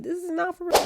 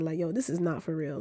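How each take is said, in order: First: Mock British accent, much higher; squeaky hammed-up British. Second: Said in the usual way. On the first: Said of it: "I gotta drop this British accent". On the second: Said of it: "Yo, I gotta drop".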